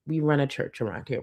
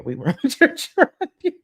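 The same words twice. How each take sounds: First: Said in the usual way. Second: High, laughing repeat. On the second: Real, not acted. Streamer repeating her church line to chat, laughing. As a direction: laugh through the words, pitch jumping up.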